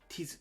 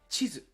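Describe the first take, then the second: First: The word begins with a plain 't' sound. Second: The word begins with a 'ch' sound.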